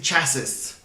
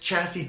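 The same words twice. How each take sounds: First: The word is said as it is spelled. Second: The word is said the standard way.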